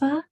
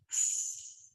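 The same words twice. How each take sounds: First: The F sound carries voice. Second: The F sound is only air. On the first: The speaker calls it wrong. "It's not F" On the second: The speaker calls it right. "voiceless sound, only air"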